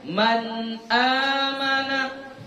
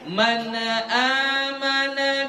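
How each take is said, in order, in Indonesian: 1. Huruf n ditahan tanpa pelepasan tambahan. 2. Huruf n dilepaskan dengan bunyi tambahan di belakangnya. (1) "Ya, dia man amana" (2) "Jadi bukan man amana billahi, bukan"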